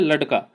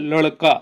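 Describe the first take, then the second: First: The middle consonant is a plain retroflex stop. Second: The middle consonant is a retroflex flap. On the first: "जहां पर बिंदी ना लगा तो क्या हो जाए" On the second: "अगर इस बिंदी ल- लगा दें तो क्या हो जाए"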